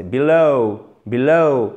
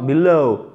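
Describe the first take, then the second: First: Corrected demo of be-LOOW; drawn-out diphthong ending. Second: Another faulty below, final sound not gliding properly to ou; teacher's counter-example of below; mispronounced below. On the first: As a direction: stretch the last syllable of below as a double sound. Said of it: "vous faites traîner sur la fin". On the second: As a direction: show a faulty ending on below. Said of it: "c'est important de ne pas dire". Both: Shown as a demonstration.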